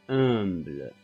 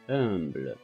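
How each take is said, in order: No difference in how they are said.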